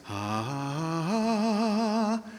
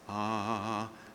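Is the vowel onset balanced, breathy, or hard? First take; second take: breathy; balanced. First: The vowel starts with a breathy, loose onset. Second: The vowel starts with a clean, balanced onset. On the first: "aspirated or loose" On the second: "today I want you going for balance"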